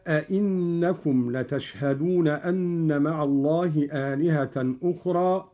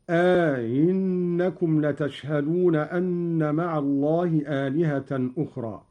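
First: Said in the usual way. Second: "أئنكم" as aa-innakum, long first vowel, second hamza eased; softened second hamza. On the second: Shown as a demonstration. Teacher demonstrating Qalun, "أئنكم" with lengthened, softened hamza. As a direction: glide over the second hamza in "أئنكم" after a two-count aa. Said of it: "قرأ قالون بتسهيل الهمزة الثانية".

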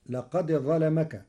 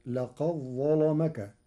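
First: Said in the usual way. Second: لقد ظلمك with the dal of لقد merged into a doubled ظ and a heavy lam; dal merged into zha. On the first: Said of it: "فتصير". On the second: Shown as a demonstration. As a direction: run لقد into ظلمك as "لقظّلمك". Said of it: "بإدغام الدال في الظاء". (إدغام الدال في الظاء مع تغليظ اللام)

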